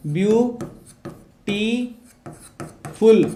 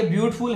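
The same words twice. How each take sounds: First: ब्यूटीफुल broken into ब्यू, टी, फुल with long pauses; syllable by syllable. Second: Said in the usual way. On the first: Shown as a demonstration. Teacher showing how to spell the word, ब्यूटीफुल split into three slow syllables. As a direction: sound out ब्यूटीफुल very slowly, one syllable at a time. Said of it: "ब्यूटीफुल कैसे लिखेंगे?". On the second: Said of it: "वैसे होता ये ब्यूटीफुल है".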